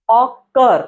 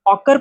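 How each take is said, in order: First: ऑकर slowly in two parts, ऑ... कर; split into syllables. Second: Said in the usual way. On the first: Shown as a demonstration. Teacher walking students through the spelling, ऑकर split as ऑ... कर. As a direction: draw out both halves of ऑकर. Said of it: "इसकी spelling देखना".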